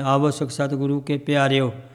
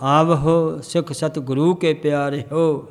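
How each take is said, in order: First: The ending is merged into one word, piario. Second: The ending is two separate words, piare ho. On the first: The speaker calls it wrong. "ਪਿਆਰਿਓ ਨਹੀਂ ਪੜ੍ਹਨਾ" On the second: The speaker calls it right. "ਕੀ ਪੜ੍ਹਨਾ? ਪਿਆਰੇ ਹੋ"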